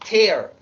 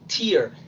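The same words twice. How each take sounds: First: The vowel sounds like the word 'air'. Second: The vowel sounds like the word 'ear'. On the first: It means to rip something apart. "Pero cuando es verbo, como destrozar, romper" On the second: It means a drop from the eye. "cuando es sustantivo, se pronuncia tear, lágrima"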